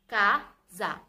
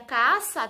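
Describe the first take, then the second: First: The middle consonant is a buzzing Z sound. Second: The middle consonant is a hissing S sound. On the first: The speaker calls it right. "ele vai ter o som de Z e não o som de S" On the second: The speaker calls it wrong. "S com A dá sa. ... Mas não é assim que a gente lê"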